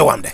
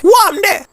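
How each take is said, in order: First: Said in the usual way. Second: Very high, louder squeaky Deborah voice. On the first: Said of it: "Deborah, say". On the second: Pretend. Man voicing his new friend Deborah's greeting, very high. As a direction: pitch way up to give Deborah her line.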